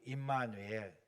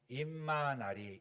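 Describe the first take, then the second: First: The word ends in a 'nuel' sound. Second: The word ends in a 'nari' sound. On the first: "우리는 임마누엘" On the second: "중국 사람들은 뭐라고 발음하냐면 임마나리 그래요"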